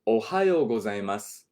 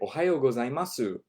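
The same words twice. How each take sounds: First: The final syllable ends on just an 's'. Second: The final syllable is a full 'su' sound. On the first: The speaker sounds natural. The speaker calls it right. "Say it like this. Just leave it on the S" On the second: The speaker sounds foreign. The speaker calls it wrong. "Do not say おはようございます. Don't say it like that"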